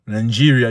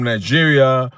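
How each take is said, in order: First: "Nigeria" said with an added n, as nan-JEE-ria; Nigerian-style pronunciation. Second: Said in the usual way. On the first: Shown as a demonstration. Host teasing how Nigerians say it, "Nigeria" pronounced Nan-jiria. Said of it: "you must make sure you say Nigeria". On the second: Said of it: "not Nigeria".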